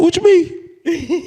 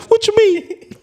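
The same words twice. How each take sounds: First: Much higher, slow, laughing crying voice; teary squeak. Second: Much higher choked crying voice; teary squeak again. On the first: Replying to Cam while crying, in a high tearful squeak. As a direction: squeeze it out mid-sob. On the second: Showing the listener exactly how he squeaked it to Cam. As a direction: repeat it the same tearful way. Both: Retold or imitated. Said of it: "Just like that".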